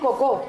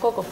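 First: The stress is on the second syllable. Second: The stress is on the first syllable. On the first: The speaker calls it wrong. "tendríamos que decir cocó. Y no decimos cocó" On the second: The speaker calls it right. "La primera. Co. Es como la que hacemos más larga"

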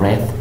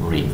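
First: It is said with the past-tense pronunciation. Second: It is said with the present-tense pronunciation. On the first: The action happened in the past. "en pasado lo vas a pronunciar como read" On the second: The action is a present routine. "Solamente en presente lo pronuncias como read"

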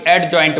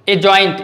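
First: A d sound is pronounced before the j. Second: The d sound is silent before the j. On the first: The speaker calls it wrong. "ना कि एडजॉइंट बोलेंगे" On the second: The speaker calls it right. "इसको अजॉइंट बोलेंगे"

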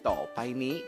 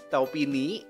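First: The middle syllable is said fully as 'pai'. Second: The middle syllable is shortened to 'pi'. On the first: The speaker calls it right. "Padahal sebenarnya ini adalah topaini" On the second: The speaker calls it wrong. "seringnya nemunya topini ya"

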